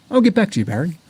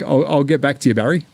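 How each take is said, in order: First: A mock Australian accent, higher. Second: Said in the usual way. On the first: Teasing a viewer in a mock Australian accent. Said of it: "I can do Australian".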